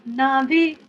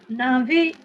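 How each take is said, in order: Both takes have the same delivery.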